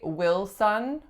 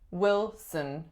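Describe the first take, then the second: First: The second syllable has a full vowel, like son. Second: The second syllable has a reduced schwa vowel. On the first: The speaker calls it wrong. "So we do not say Wilson" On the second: The speaker calls it right. "reduces to schwa"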